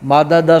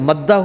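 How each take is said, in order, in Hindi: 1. बीच में स्वर के साथ दो अलग-अलग द की आवाज़ें। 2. दोनों द की आवाज़ें मिलकर एक दोहरा द बन जाती हैं। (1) "मादादा दो दाल थे" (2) "मादादा से मद्दा हुआ"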